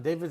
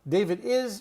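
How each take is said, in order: First: The word 'is' is contracted to an s sound. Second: The word 'is' is said in full. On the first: The speaker calls it right. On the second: The speaker calls it wrong.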